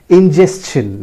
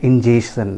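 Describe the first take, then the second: First: Ingestion as in-JES-chun; correct pronunciation. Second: Ingestion as in-JAY-shun, no T; plain SH in ingestion; wrong pronunciation. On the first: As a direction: sound S plus CH in ingestion. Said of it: "It is again pronounced as". (ingestion का सही उच्चारण, इन-जेस-चन) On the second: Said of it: "not ingestion". (ingestion का गलत उच्चारण, इन-जे-शन) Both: Shown as a demonstration.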